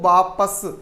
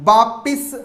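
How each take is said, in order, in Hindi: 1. दूसरे अक्षर में 'a' स्वर है। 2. दूसरे अक्षर में 'i' स्वर है। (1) "वास्तव में शुद्ध शब्द होता है" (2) "वापिस हम बोल देते हैं"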